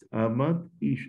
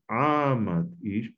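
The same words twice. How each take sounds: First: The first word is stressed on its last syllable. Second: The first word is stressed on its second-to-last syllable. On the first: The speaker calls it wrong. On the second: The speaker calls it right. "la primera tiene que retroceder una sílaba, pasar a la penúltima"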